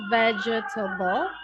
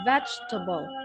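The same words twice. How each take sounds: First: The word is said with four syllables. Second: The word is said with three syllables. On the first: The speaker calls it wrong. "So it's not vegetable" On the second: The speaker calls it right. "but vegetable ... it just has three syllable"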